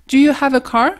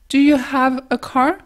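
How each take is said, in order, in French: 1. Dit vite, avec le h à peine audible. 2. Le son h est nettement soufflé.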